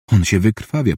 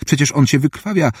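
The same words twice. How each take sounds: First: Understated, even-pitched inner realisation; inward thought. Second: Higher-pitched, mildly incredulous objection; astonished protest. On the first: Surgeon thinking that her patient is bleeding out, an understated inward thought. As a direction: think it to yourself, without raising the voice. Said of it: "pomyślała Katrin". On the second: Assistant objecting that the patient is bleeding out, astonished protest. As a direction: object in puzzled disbelief, pitch lifted. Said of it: "zdumiał się Barrows". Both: A narrator's reading.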